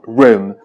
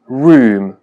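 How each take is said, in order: First: The vowel is short and open. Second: The vowel is long and closed. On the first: "con una U breve y más abierta" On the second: "con la U larga y más cerrada"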